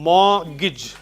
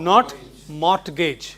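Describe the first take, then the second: First: The t in the middle is silent. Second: The t in the middle is sounded. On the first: The speaker calls it right. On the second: The speaker calls it wrong.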